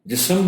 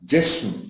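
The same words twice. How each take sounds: First: A short vowel is inserted between s and m. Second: The s runs straight into m, no vowel. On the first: The speaker calls it wrong. "इसको भी गलत बोला जाता है" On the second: The speaker calls it right. "दुरुस्त लफ्ज है जिस्म, सीन पर जज्म है"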